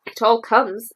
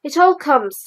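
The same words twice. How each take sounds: First: Understated stern, level and firm; mildly stern, setting him straight. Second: A touch of crossness, a little higher and louder; mildly grumpy, blaming the door; cross. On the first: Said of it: "said Rabbit sternly". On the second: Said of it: "said Pooh crossly". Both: A narrator's reading.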